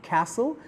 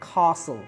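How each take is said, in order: First: It is said with an American accent. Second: It is said with a British accent. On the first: "American সাউন্ডে আসে কি ক্যাসল" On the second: "British সাউন্ডে আসে কি কাসল"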